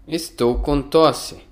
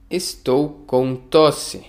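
First: Said in the usual way. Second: Slow, each syllable clear; slow model reading. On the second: Shown as a demonstration. Teacher models a phrase for learners, slowly. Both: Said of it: "teacher repeats phrase for learners".

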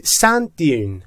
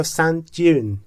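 First: Said in the usual way. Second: دیون said with a j sound, "sand jyoon"; British style, turn the d of دیون into j; British pronunciation. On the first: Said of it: "ممکنه در انگلیسی بریتیش صدای جی هم ازش بشنوید". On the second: Shown as a demonstration. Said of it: "در انگلیسی بریتیش صدای جی". (تلفظ بریتیش دیون با صدای جی)

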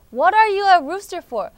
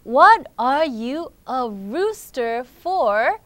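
First: Higher, brisker take of "What are you a rooster for?"; quicker challenge. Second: Very slow reading, stretching "What are you a rooster for?"; slow challenge. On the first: Friend repeats the challenge to the rooster, brisker and higher. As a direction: say it in one run, loud and falling at the end. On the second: Friend challenges the young rooster, slow and emphatic. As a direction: draw out each word, loud and deliberate. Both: Acted.

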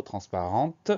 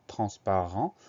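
First: TRANSPARENTE closed on a clearly sounded T; audible final T. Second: TRANSPARENT ending on the nasal vowel, no T; silent final T. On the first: Teacher showing the feminine version, final T sounded. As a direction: let the T ring at the end of "transparente". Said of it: "on entend ce mot-là". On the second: Teacher pointing out the word's spelling, silent final T. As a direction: leave the last T of "transparent" unsounded. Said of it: "on a un T muet à la fin". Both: Shown as a demonstration.

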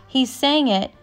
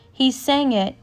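No difference in how they are said.

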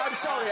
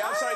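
First: Breathless whispered "I'm sorry" through laughter; a voiceless, breathless "I'm sorry"; whispered apology. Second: "I'm sorry" squeaked very high through giggles; a very high, giggling "I'm sorry"; squeaky laughing apology. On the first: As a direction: gasp out the apology with no voice. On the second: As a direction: apologise but the laugh takes over. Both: Real, not acted.

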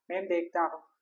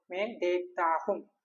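First: Said in the usual way. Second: മേ ദേഖ്താ ഹും said slowly, each syllable drawn out; slow model phrase. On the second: Shown as a demonstration. Teacher modelling the Hindi for I see, slow and deliberate. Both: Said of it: "okay, ഞാൻ കാണുന്നു".

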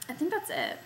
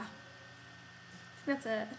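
First: Said in the usual way. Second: Slow hushed whisper. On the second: Pretend. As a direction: breathe it out in a whisper. Wrapping up, drops to whisper.

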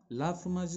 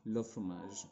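First: "La fromage" read out as written, la before fromage; wrong article. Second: "le fromage" with the article le, not la; corrected article. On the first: Teacher reads a student's wrong article aloud, stressing la. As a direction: read the misspelt "La fromage" as the sheet shows it, la not le. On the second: Teacher gives the correct form to the class, le fromage. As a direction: give the fixed "le fromage" clearly, le before fromage. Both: Shown as a demonstration. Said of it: "should be le fromage".

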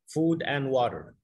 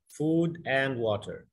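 First: Said in the usual way. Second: "Food and water" said very slowly, each word drawn out; slow teaching demo. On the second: Shown as a demonstration. Teacher to Arabic-speaking learner, very slow model phrase. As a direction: spell it out slowly in sound, word by word. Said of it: "هتلاقي معناها food and water".

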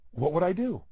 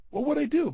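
First: Said in the usual way. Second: Much higher, pressing the question home; emphatic repeat. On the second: Shown as a demonstration. A speaker repeating the question to drive it home to the audience. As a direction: ask it again and really push it.

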